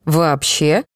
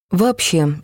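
First: Rising tune on «Вообще?»; disbelieving question. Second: Falling tune on «Вообще.»; firm answer. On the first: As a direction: ask «Вообще?» with a clear rising pitch. Boy asks in disbelief. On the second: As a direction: say «Вообще.» with a firm final fall. Girl answers firmly. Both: A narrator's reading.

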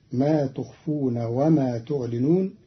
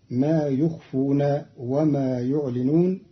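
First: Said in the usual way. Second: يخفون and يعلنون begin "yu"; third-person ya. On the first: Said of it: "قرأ قالون كلمتي". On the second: Shown as a demonstration. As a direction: start both يخفون and يعلنون with y, not t. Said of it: "بياء الغيب فيهما".

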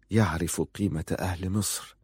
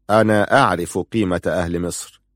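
First: Said in the usual way. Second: أنا pushed out first and strongest; stress on أنا. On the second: Acted. Prince throwing Ali's words back, stress on أنا. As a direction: lean hard on أنا, then the rest level.

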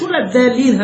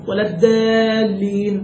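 First: الدالين with a plain light dal. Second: الدالين with a heavy dal, slow; dal for dad. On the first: Teacher contrasting the plain dal that nobody uses. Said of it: "هكذا بالدال". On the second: Teacher imitating people who read dad as a heavy dal. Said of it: "هو ما بيقولش". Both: Retold or imitated.

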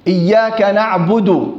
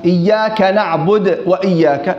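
First: "نعبد" ending in a clear u, "na'budu"; drawn-out "na'budu" for "نعبد"; damma on dal. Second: "نعبد" losing its final u; imitated dropped damma. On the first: Shown as a demonstration. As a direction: slowly finish "نعبد" on du. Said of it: "الدال عليها ضمة". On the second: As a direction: run "نعبد" into "وإياك" without a clear du. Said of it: "في بعض الناس".

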